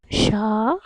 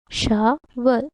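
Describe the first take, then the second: First: SHOVEL split into two beats, sho - vel; long pause inside SHOVEL, after "sho"; syllable by syllable. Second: Said in the usual way. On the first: Shown as a demonstration. Teacher asking how many syllables, syllable by syllable. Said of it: "How many syllables?". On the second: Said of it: "How many syllables does this has?".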